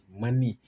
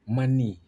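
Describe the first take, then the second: No difference in how they are said.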